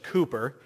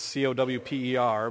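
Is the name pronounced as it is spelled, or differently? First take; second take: differently; as spelled. First: The name is pronounced differently from its spelling. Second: The name is pronounced as it is spelled. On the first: The speaker calls it right. "but it doesn't work like that in Old English" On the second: The speaker calls it wrong. "I always want to pronounce it Cowper because it's C-O-W-P-E-R"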